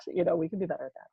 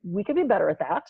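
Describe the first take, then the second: First: Softer and faster repeat to herself; quick soft aside. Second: Said in the usual way. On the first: Shown as a demonstration. Admitting to co-host, a quick soft echo. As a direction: toss it off under the breath.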